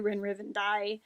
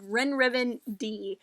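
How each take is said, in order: First: The last syllable sounds like 'die'. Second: The last syllable sounds like 'dee'. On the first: This is a possible alternative pronunciation. "It might be Rinriven Die" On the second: This is the speaker's preferred pronunciation. "which is how I would pronounce it"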